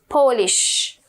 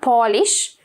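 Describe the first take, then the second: First: It is said like the nationality Polish. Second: It is said like the verb polish. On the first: It means from Poland. The speaker calls it right. "but this is a nationality, Polish" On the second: It means to make something shiny. The speaker calls it wrong. "not Polish, okay, or polish is a verb"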